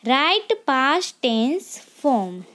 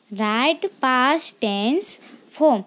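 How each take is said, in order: Both takes have the same delivery.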